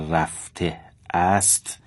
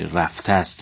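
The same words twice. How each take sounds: First: The word 'ast' is pronounced fully as separate. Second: The word 'ast' is merged into the previous word. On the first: The speaker calls it wrong. "نباید خونده بشه" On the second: The speaker calls it right. "باید به کلمه قبلش چسبیده بشه"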